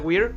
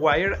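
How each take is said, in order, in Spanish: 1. El nombre suena como la palabra 'we're'. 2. El nombre suena como la palabra 'wire'. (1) "me di cuenta de que se pronuncia Weir" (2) "que yo pronunciaba como Wire"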